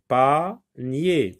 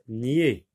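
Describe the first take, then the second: First: "Panier" louder, with the final yé sound hit hard and falling; emphatic model word. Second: Only the syllable "Nier" said alone, clearly, as a yé sound; syllable isolated. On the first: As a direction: punch the "nier" of "Panier". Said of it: "On entend yé". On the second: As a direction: cut "Nier" out of panier and say it on its own. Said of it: "dans la deuxième syllabe". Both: Shown as a demonstration.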